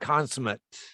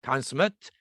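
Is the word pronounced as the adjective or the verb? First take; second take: adjective; adjective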